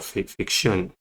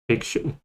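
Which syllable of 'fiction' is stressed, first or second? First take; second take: second; first. First: The stress is on the second syllable. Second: The stress is on the first syllable. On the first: The speaker calls it wrong. "Rather than fiction or fiction" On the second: The speaker calls it right. "Stresses on the first syllable"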